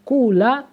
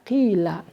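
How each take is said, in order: First: The first vowel is a pure u sound. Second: The first vowel is a pure i sound. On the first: "domah mukhlasan berarti dibaca kula" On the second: "wawunya diganti dengan ya, dibaca kila"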